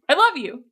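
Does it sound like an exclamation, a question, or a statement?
exclamation. It sounds emphatic, like an exclamation.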